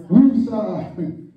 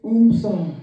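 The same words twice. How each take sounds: First: "Wusa" opened with a w, woo-sah; corrected calming word. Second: "Umsa" opened with a hummed "oom"; mispronounced calming word. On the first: Preacher correcting himself on the calming word, "Wusa" said woo-sah. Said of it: "Wusa, I'm sorry". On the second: Preacher trying to recall a calming word, "Umsa" said oom-sah. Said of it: "How they say it?". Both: Shown as a demonstration.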